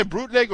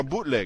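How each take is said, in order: First: "bootleg" said with an added R, "brootleg"; "bootleg" mangled into "brootleg"; mispronounced bootleg. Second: Said in the usual way. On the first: Pretend. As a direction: slip an R in after the B of "bootleg". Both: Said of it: "did you say bootleg or bootleg".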